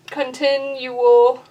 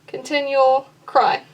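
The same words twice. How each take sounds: First: "continual" slowly split as con-tin-u-al; syllable by syllable. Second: "continual" said quickly joined, its ending merged; syllables run together. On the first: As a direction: sound out every syllable of "continual". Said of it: "typically would be more than one syllable". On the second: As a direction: glide through "continual" into "cry". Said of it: "it's actually just one in this place". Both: Shown as a demonstration.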